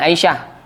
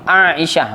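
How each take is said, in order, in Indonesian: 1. Dua vokal pertama diucapkan menyambung. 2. Dua vokal pertama diucapkan terpisah. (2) "ini nama sebutan betulnya macam ni"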